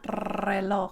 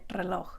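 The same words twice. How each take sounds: First: The starting R is trilled for a long time. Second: The starting R is trilled only briefly. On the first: The speaker calls it wrong. "you don't have to sit there and roll it forever. It's not reloj" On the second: The speaker calls it right. "You just do it a little bit"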